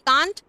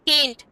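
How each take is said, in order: First: The vowel is an open 'ah' sound. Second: The vowel is a front 'eh' sound. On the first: "इसको हम कांट भी बोल सकते हैं" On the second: "केंट भी बोल सकते हैं"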